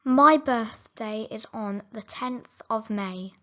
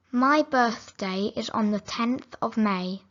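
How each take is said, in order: Both takes have the same delivery.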